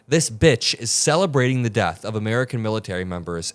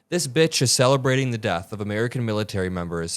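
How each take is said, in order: First: It is read with more force and energy. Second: It is read in a plain, low-energy way.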